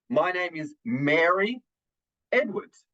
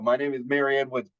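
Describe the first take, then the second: First: There is a pause before the last name. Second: There is no pause before the last name. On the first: The speaker sounds credible and deliberate. The speaker calls it right. "That kind of pause is always going to have a much more credible impact" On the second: The speaker sounds less credible. The speaker calls it wrong. "than going"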